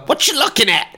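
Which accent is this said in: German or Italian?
German. It is said in a put-on German accent. "in your German accent"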